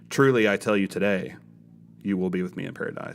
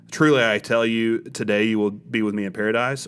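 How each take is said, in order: First: The pause comes after the word today. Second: The pause comes before the word today.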